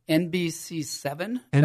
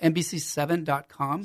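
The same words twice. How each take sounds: First: It is said slowly and carefully. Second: It is said at normal speed.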